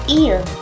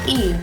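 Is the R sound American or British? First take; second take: American; British. First: The R is said the American way. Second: The R is said the British way.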